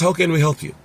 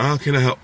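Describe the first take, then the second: First: It sounds polished and professional. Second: It sounds sleepy and casual.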